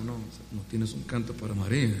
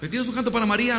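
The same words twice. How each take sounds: First: Lower, quieter, stern interrogation; Gestapo style. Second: Higher, friendly request for a song; polite asking. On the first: Stricter organizers demanding a song for Mary, stern. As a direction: lean in like a cold interrogator. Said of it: "así, más Gestapo". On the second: Organizer politely asking for a Marian song, friendly. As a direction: ask nicely, hopeful lift. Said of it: "más Gestapo". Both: Retold or imitated.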